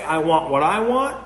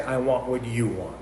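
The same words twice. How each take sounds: First: Rising, open tune on "I want what I want"; "I want what I want" pitched up, ending on a rise; stress on second I. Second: Lower, softer "I want what you want", falling at the end; stress on YOU. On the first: Preacher voicing self-will to the congregation, rising and insistent. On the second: Preacher voicing submission to God, soft and falling. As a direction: lean on "you", then let "want" drop away quietly. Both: Shown as a demonstration.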